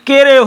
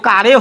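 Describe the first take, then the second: First: The vowel is a plain 'eh' sound. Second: The vowel is an open 'ah' sound. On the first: "अगर इस ए को एकर पढ़ेंगे केरे हो जाएगा" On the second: "अगर इस ए को आकार पढ़ेंगे तो कारे हो जाएगा"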